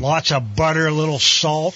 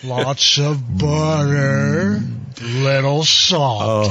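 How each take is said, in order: First: It is said at normal speed. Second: It is said slowly and drawn out.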